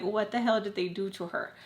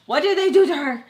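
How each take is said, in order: First: Said in the usual way. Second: Loud, high, exasperated demand; alarmed outburst. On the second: Retold or imitated. Worrying over her unanswering friend, alarmed outburst. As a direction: blurt it out louder and higher. Inner outburst about missing Sam.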